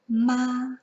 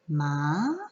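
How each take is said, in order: First: The pitch stays level and flat. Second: The pitch rises like a question. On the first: "It is flat across and literally just spoken out with no intonations" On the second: "is a rising tone"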